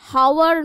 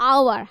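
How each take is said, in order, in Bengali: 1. এই শব্দটি h ধ্বনি দিয়ে শুরু হয়। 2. এই শব্দটি একটি স্বরধ্বনি দিয়ে শুরু হয়, কোনো h ধ্বনি নেই। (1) "হাওয়ার নয় কিন্তু" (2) "আমরা বলছি এটা কিন্তু আওয়ার"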